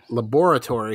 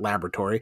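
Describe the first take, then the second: First: The word is said in a spooky, dramatic way. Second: The word is said in an ordinary, everyday way. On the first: The speaker calls it right. "because we're spooky and that's how you're going to pronounce it" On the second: The speaker calls it wrong. "not laboratory"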